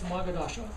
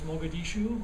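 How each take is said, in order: First: The name ends with an 'ah' sound. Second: The name ends with an 'oo' sound. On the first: The speaker calls it wrong. "I don't really know how to pronounce this, but I think it's" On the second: The speaker calls it right. "whereas in reality is"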